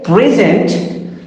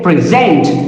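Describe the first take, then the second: First: The stress is on the first syllable. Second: The stress is on the second syllable. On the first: It is a noun. "so it is a noun" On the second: It is a verb. "it is a verb"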